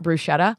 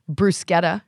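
First: It is said the Americanized way. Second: It is said the Italian way. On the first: The speaker calls it wrong. "I'm just going to Americanize it" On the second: The speaker calls it right. "even though it's right"

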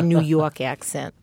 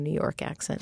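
First: It is said in a strong New York accent. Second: It is said in a neutral accent.

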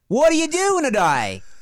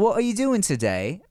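First: It is said in an Australian-sounding accent. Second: It is said in a posh British accent. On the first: "It's like" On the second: "So if you take a, like, oh, hello"

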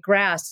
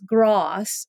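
First: The vowel is a flat, front a sound. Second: The vowel is a broad, open ah sound.

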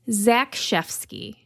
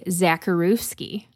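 First: The surname is given a Polish pronunciation. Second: The surname is given an anglicized pronunciation. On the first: The speaker calls it right. "And it's Zekszewski" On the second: The speaker calls it wrong. "I was definitely going to say Zakharovsky"

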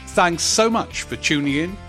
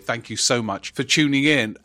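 First: It is said in a silly put-on voice. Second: It is said in his normal voice.

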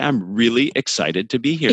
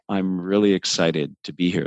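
First: It is said lively, with emphasis on emotive words. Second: It is said flat, with little variation. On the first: The speaker sounds genuinely enthusiastic. The speaker calls it right. "The really and the excited invoke that emotion" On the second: The speaker sounds unenthusiastic. The speaker calls it wrong. "So I would never say"

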